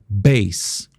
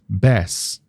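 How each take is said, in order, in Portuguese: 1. Usa a pronúncia de "bass" de instrumento. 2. Usa a pronúncia de "bass" de peixe. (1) "bass, instrumentos, notas graves" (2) "bass, peixe"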